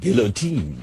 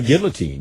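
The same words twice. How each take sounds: First: The word is said with a French pronunciation. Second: The word is said with an English pronunciation. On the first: "maybe I could have said guillotine. The French pronunciation" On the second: "I say gu- uh, guillotine"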